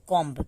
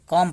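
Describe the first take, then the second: First: The word ends with an audible b sound. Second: The word ends on m, with no b. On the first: The speaker calls it wrong. "बहुत से लोग अभी तक इसको कॉम्ब पढ़ते होंगे" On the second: The speaker calls it right. "कॉम पढ़ा जाता है। बी यहाँ पे साइलेंट होता है।"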